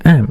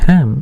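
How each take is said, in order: First: The h sound at the start is silent. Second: The h sound at the start is pronounced. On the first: The speaker calls it right. "హెచ్ silent అనమాట" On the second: The speaker calls it wrong. "It's not"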